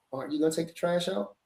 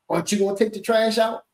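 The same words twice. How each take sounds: First: Much softer, light rising ask on "gonna"; gentle ask. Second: Pointed, accusing ask, stress on trash; negative tone. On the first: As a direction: ask kindly, softly. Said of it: "Or I could say". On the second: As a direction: put a bite on "trash". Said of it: "you could say it in a negative way". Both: Shown as a demonstration.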